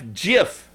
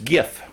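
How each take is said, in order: First: It begins with a soft J sound. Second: It begins with a hard G sound. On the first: "Like the peanut butter, J-I-F, GIF" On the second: "Like gift with the T left off, just GIF"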